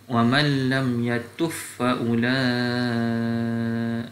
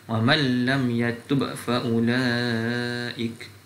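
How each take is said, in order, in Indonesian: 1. Bunyi b melebur menjadi f yang digandakan. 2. Bunyi b diucapkan jelas sebelum f. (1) "kalau dibaca dengan uh, idgham" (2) "saya baca dengan izhar dulu"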